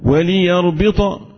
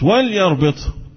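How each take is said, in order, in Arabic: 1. صوت اللام عليه حركة. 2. صوت اللام ليس عليه حركة. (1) "اللام متحركة وليست ساكنة" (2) "مش وليربط"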